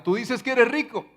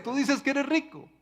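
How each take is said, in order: First: Higher, firm rebuke to the church; voicing the Lord's rebuke. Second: Much higher, pointed repeat of the rebuke; rising rebuke. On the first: The Lord rebukes the church, higher-pitched and firm. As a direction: speak as the Lord calling out the church. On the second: Acted. The Lord presses the church again, much higher. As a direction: push the accusation up in pitch. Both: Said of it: "como diría nuestro Señor en Apocalipsis".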